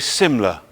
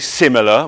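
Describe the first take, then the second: First: One syllable of the word is dropped. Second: Every syllable of the word is pronounced. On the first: The speaker calls it right. "we say similar" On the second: The speaker calls it wrong. "we don't say similar"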